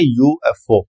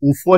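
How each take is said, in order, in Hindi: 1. इसे तीन अलग-अलग अक्षरों की तरह बोला जाता है। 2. इसे एक शब्द की तरह बोला जाता है, oofo। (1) "इसको कहते हैं यूएफओ" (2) "ऊफो नहीं कहते इसको"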